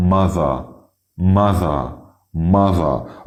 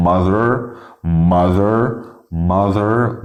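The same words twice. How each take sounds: First: Mother as "ma-tha"; British R-less ending. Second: Mother with a sounded final "er"; American R ending. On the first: Teacher modelling British mother, no r at all. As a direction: drop the r from mother, open "ah". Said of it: "بالبريتش اسمها". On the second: Teacher modelling American mother, r fully sounded. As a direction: end mother on a held r. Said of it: "هننطق الكلمات بالامريكان". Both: Shown as a demonstration.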